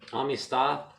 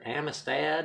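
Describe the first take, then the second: First: It is pronounced with a Spanish accent. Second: It is pronounced with an English accent. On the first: "is how you pronounce it in Spain" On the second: "I think you guys call it"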